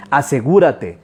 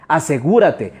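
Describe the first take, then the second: No difference in how they are said.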